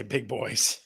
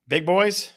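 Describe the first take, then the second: First: Plain statement. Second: Questioning tune. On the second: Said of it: "I'll say". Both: Shown as a demonstration.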